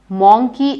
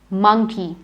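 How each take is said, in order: First: The first vowel is an 'oh' sound. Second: The first vowel is not an 'oh' sound. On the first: The speaker calls it wrong. "Monkey is incorrect" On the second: The speaker calls it right. "It's monkey and it does not have an O sound"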